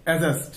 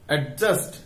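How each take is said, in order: First: অ্যাডজাস্ট as "a-just", no d sound; silent-d pronunciation. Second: অ্যাডজাস্ট with the d wrongly sounded, "ad-just"; common mispronunciation. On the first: Teacher giving learners the corrected form, অ্যাডজাস্ট with silent d. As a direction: glide straight to the j in অ্যাডজাস্ট, dropping the d. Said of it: "উচ্চারণ কি হবে?". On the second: Teacher showing learners a common slip, অ্যাডজাস্ট with audible d. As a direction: stop on the d in অ্যাডজাস্ট before the j. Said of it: "এই দুটো উচ্চারণই ভুল". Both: Shown as a demonstration.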